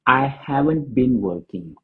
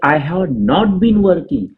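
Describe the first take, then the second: First: 'Have not' is contracted into one short word. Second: 'Have not' is said as two full words.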